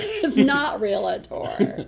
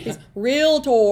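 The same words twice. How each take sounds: First: "realtor" said slow as three syllables, REE-la-tor, with a laugh; mock mispronunciation. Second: "realtor" said as two syllables, REEL-tor; correct pronunciation. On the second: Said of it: "what's that Modern Family". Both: Shown as a demonstration.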